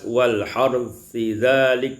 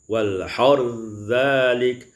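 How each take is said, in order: First: The th sound is kept before dhalik. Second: The th sound merges fully into the dh.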